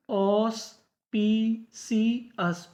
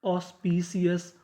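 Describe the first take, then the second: First: auspicious said very slowly, each syllable apart; teacher drawing out auspicious; slow careful reading. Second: Said in the usual way. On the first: Shown as a demonstration. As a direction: spell out auspicious by sound for the class. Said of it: "क्या पढ़ते हैं?". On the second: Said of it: "ओ यू एस को क्या पढ़ते हैं?".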